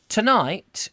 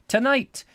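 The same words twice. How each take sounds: First: Said in the usual way. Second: High-pitched put-on Scottish voice; Scottish accent. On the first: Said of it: "Scottish accent here". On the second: Husband tells of tonight's plan, put-on Scottish accent. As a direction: give "Tonight" a Scottish vowel, pitched right up. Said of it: "Scottish accent here, I'm assuming".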